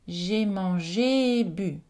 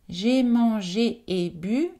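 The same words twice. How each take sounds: First: The two vowels merge into one long vowel. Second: The two vowels are said as separate sounds.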